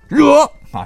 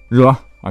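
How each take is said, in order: First: It is said in a firm, eager tone. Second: It is said in a grudging, reluctant tone. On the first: The task will surely be completed. "就是得力，就是保证完成任务" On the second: The task is accepted unwillingly. "就是你接了个活当时不太愿意"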